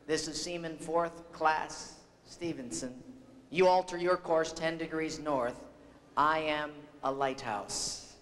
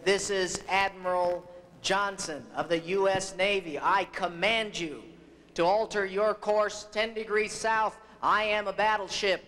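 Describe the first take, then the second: First: Understated retold reply, measured and unforced; unruffled seaman. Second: Mildly angered mock command, building to the end; retold anger, firm and emphatic; angry admiral. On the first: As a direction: answer the admiral's bluster calmly, slowing on the punchline. Unruffled seaman answers the angry admiral. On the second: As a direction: pull rank as an exasperated admiral, rising in pitch. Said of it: "Finally, in anger".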